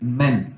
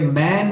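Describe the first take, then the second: First: The vowel is short and clipped. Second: The vowel is long and drawn out. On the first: The speaker calls it right. "छोटा, छोटी मात्रा रखनी है इसमें, छोटा sound" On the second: The speaker calls it wrong. "ये मैन नहीं बोलना है"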